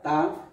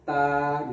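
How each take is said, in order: First: The vowel is short. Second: The vowel is long. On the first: The letter stands alone. "Kalau sendirian dia dibaca" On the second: The letter is followed by alif. "namun ketika ada alif menjadi"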